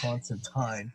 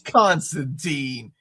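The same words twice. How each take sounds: First: The name is said the British way. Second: The name is said the American way. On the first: "I get yelled at by my British viewers that it's Constantine" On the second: "we live in America, okay? It's Constantine"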